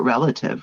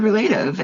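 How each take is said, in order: First: The middle syllable is a weak 'luh'. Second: The middle syllable sounds like 'late'. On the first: The speaker calls it right. "you pronounce that relative, right?" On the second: The speaker calls it wrong. "I had always said relative"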